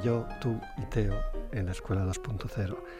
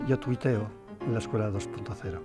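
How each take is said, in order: First: It is said slowly, with pauses between words. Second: It is said quickly, words run together.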